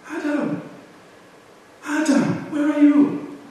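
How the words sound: It is said in a soft, pitying tone. The caller feels sorrow and compassion for the wrongdoer. "a second tone to this. Ay, mercy, pity"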